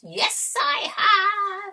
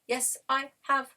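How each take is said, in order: First: It is said in a witch's voice. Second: It is said in a robotic voice.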